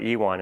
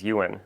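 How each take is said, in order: First: Ewan said as ee-WAHN, stress on the second syllable; wrong pronunciation of Ewan. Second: Ewan said as YOO-un, stress on the first syllable; correct pronunciation of Ewan. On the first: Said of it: "it's Ewan". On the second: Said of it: "his name's not Ewan". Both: Shown as a demonstration.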